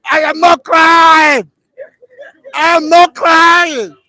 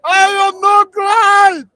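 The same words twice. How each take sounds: First: Slow, much louder, higher wail of denial; imitating a crying boy. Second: Much higher, very slow, louder howl; imitating a sobbing boy. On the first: Caned schoolboy insisting he isn't crying, slow mock wail. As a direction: wail that you're not crying, hammed up. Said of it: "he said". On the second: Caned schoolboy at stroke eight, mock sobbing howl. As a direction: howl the denial as the tears break. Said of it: "Eight, he said".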